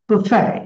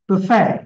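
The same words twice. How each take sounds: No difference in how they are said.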